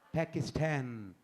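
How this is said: The word is said with an English accent. "बल्कि क्या कहेगा? पाकिस्तान"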